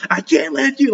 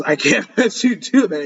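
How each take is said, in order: First: Pitched way up, imitating a scream; half-yell it, high and strained; mock scream. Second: Said in the usual way. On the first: Reacting to an anime hero screaming at the devil, mock yell. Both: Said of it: "He's like, he's screaming".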